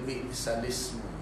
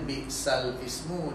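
First: The words are shortened and run together. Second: The words are said in full, separately. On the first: This is how the reciter reads it. "dia baca Biksalismu" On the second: This is the original form. "asalnya Biksal Ismu"

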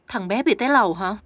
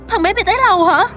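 First: The line is said in a cool, controlled way. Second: The line is said in a highly emotional way. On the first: The character stays cold and strong. The speaker calls it right. "nghe có vẻ ok rồi" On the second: The character is badly shaken by the news. The speaker calls it wrong. "Không thể quá xúc động như vậy được"

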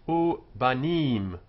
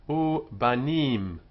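No difference in how they are said.

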